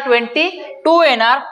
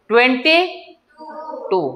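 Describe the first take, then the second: First: Said in the usual way. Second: Drawn-out prompt. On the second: Shown as a demonstration. Teacher coaxing the class to answer, slow drawn-out. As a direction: slowly spell out "twenty" then pause before "टू". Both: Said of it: "किती येणार?".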